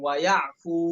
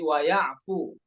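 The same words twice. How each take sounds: First: The final vowel is drawn out long. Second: The final vowel is cut short. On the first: The speaker calls it wrong. "bukan wayafu" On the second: The speaker calls it right. "tapi wayafu fu-nya pendek"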